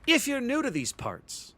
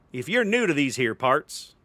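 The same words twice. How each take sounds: First: Said in the usual way. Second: Lightly put-on Western accent. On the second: Shown as a demonstration. Streamer greets newcomers to match a Western theme, attempted Western accent. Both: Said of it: "Should I do this with an accent?".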